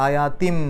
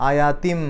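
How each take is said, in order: Both takes have the same delivery.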